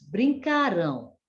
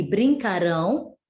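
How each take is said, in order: First: "brincarão" said as past "brincaram", stressed on CA; stress on penultimate syllable. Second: "brincarão" stressed on final RÃO; stress on last syllable. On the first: Teacher showing the past form, "brincarão" stressed on CA. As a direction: punch CA in "brincarão", light ending. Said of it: "quando estiver referindo ao passado". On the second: Teacher showing the future form, "brincarão" stressed on RÃO. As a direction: land firmly on RÃO in "brincarão". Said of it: "quando estiver falando no acontecimento futuro". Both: Shown as a demonstration.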